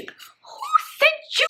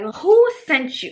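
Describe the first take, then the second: First: Very high, drawn-out squeal; exasperated wail. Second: Loud, slow, higher 'who sent you'; exasperated outburst. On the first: Storyteller bemoaning who sent this man, high exasperated wail. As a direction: stretch each word in a hammed-up high wail. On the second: Storyteller demanding who sent this man, exasperated outburst. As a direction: drag it out in loud disbelief. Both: Retold or imitated.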